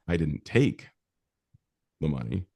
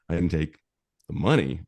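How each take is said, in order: First: The stress is on "take". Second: The stress is on "money".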